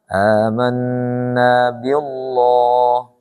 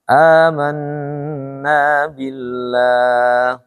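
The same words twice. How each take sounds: First: The l sound is heavy and dark. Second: The l sound is light and thin. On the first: The speaker calls it wrong. "Enggak boleh dibaca amanna billah. Terlalu tinggi" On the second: The speaker calls it right. "Tarkik dia"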